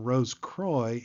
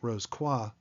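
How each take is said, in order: First: It is pronounced the anglicized American way. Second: It is pronounced the French way. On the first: This is the usual form among American members. "most common among brethren here in the U S A" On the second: This is the original form of the name. "the French Rose Croix, which is arguably more proper"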